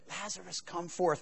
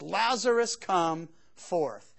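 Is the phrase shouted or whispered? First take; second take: whispered; shouted. First: It is said in a quiet whisper. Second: It is said in a loud, full voice. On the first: Only the one addressed needs to hear it. "he could have just whispered it" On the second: The crowd is meant to hear it. "he cried with a loud voice"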